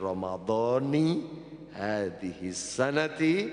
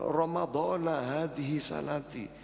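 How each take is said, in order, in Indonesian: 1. Ramadhan berakhir dengan vokal 'i'. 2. Ramadhan berakhir dengan vokal 'a'. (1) "bacaan yang tepat" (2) "populer teng masyarakat"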